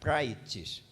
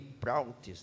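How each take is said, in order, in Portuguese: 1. A primeira sílaba soa como 'prai'. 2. A primeira sílaba soa como 'prau'. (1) "mas é prai, praites" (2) "a portuguesando é assim"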